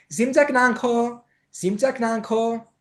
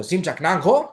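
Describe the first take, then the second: First: High, slow, drawn-out sweet-talk; attractive and pretty. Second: Blunt, louder delivery with a rise; barbarian, unattractive way. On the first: Teacher showing how to charm a Tibetan date, alluring high drawl. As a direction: sing it out alluringly, stretching the end. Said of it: "ελκυστικό και όμορφο". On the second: Teacher showing what would scare a date, blunt delivery. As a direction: fire it out bluntly, without charm. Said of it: "δεν θα το πείτε έτσι όπως το λέω". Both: Shown as a demonstration.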